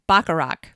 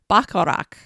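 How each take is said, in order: First: The name is read with an American pronunciation. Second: The name is attempted with a German pronunciation. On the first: "if I were to just say it in American English" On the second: "I can't say this the German way. ... something like Bacharach"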